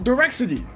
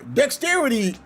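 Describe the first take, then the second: First: The word begins with the sounds 'di-rex'. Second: The word begins with the sound 'dex'. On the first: The speaker calls it wrong. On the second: The speaker calls it right.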